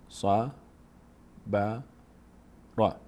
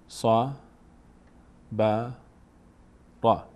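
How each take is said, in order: Both takes have the same delivery.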